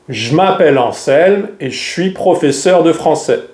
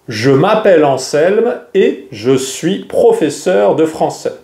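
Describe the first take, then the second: First: The E in 'je' is dropped entirely. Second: The E in 'je' is clearly pronounced.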